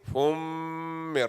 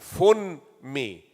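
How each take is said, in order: First: The n merges into a nasalized, held m. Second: The n is pronounced separately before the m. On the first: The speaker calls it right. "This is called idgham ma'al gunna" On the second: The speaker calls it wrong. "instead of saying fun me"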